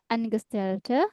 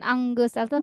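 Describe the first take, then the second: First: The middle keeps 'n' and 'g' separate. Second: The middle is blended into one 'ng' sound. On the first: The speaker calls it right. "tapi Angestellte" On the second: The speaker calls it wrong. "bukan Angestellte"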